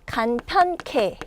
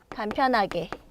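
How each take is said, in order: First: Ha and ge merge into one aspirated ke syllable. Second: All four syllables are said, including ha and ge. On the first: "히읗 더하기 기억이 결합돼서 간편케. 이런 식으로 축약이 돼요" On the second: "우리 간편하게를 줄여볼까요?"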